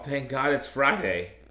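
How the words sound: It is said in a negative, sarcastic tone. The speaker is glad the week of work is over. The speaker calls it wrong. "It was in a negative tone, in a sarcastic manner"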